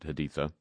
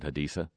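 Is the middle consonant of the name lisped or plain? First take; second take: lisped; plain. First: The name is said with a lisped th sound. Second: The name is said with a plain, unlisped sound. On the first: The speaker calls it wrong. "Why do we have to do the lisp like the king of Iraq does?" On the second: The speaker calls it right. "be honest and pronounce it Haditha"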